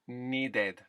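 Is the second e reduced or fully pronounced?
fully pronounced. The second e is a full eh.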